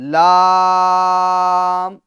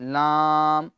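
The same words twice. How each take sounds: First: The voice stays out of the nose. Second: The voice goes through the nose. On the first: The speaker calls it right. "बल्कि लाम, लाम, इस तरीके से हमें अदा करना है" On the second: The speaker calls it wrong. "वो नाक में नहीं जानी चाहिए"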